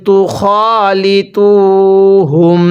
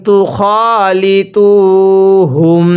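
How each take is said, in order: Both takes have the same delivery.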